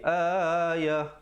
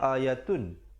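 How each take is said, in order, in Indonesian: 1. Kata ini berakhir dengan bunyi h. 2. Kata ini berakhir dengan bunyi t dan vokal. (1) "kalau kita waqaf, ta simpul ditukarkan kepada ha" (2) "asalnya ayatun. Itu kalau kita nak sambung"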